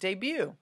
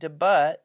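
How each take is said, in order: First: The word is pronounced the French way. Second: The word is pronounced as English spelling suggests. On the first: The speaker calls it right. "You pronounce it debut" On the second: The speaker calls it wrong. "It's a French word, so you don't say it debut"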